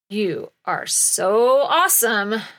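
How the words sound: It sounds sarcastic and full of disdain.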